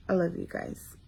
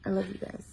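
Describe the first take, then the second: First: Softer, murmured thanks to fans; soft, tender "I love you guys". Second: Much softer tender repeat; even softer, near-whispered "I love you guys". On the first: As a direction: hush it lovingly. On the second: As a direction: let it fade to a hush. Soft sign-off to fans. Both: Real, not acted.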